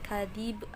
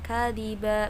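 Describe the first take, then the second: First: The word ends abruptly on a b sound. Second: The word ends on a long a vowel. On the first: The speaker calls it wrong. "bukan kadib" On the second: The speaker calls it right. "kalian harus membacanya dengan kadiba"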